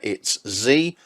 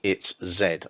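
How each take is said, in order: First: The letter is said the American way, zee. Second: The letter is said the British way, zed.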